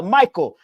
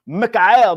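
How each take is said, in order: First: Said in the usual way. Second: "Michael" said slowly as three syllables, mee-ka-EL; Mi-ka-el, stretched out, the Hebrew way; Hebrew-style Michael. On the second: Shown as a demonstration. Names Michael then repeats it.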